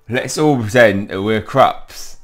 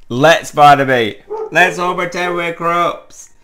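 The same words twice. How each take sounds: First: Loud, slow playful invitation; eager excitement. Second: High, loud, stretched-out cheer; overjoyed urging. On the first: Friend proposing to play as creatures, eagerly excited. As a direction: announce the game with gusto. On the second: Friend urging Barnaby to join the game, overjoyed. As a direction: call it out in giddy excitement. Eager invitation repeated to Barnaby. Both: Acted.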